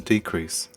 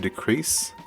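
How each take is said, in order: First: The stress is on the first syllable. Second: The stress is on the second syllable. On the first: It is used as a noun. "the noun a decrease" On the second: It is used as a verb. "Likewise, the verb to decrease"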